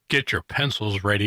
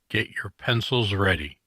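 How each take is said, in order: First: It is said with lively, enthusiastic energy. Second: It is said flatly, with little energy. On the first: The speaker calls it right. "say it with a little bit more enthusiasm" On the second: The speaker calls it wrong. "Like I just fell asleep a little bit already"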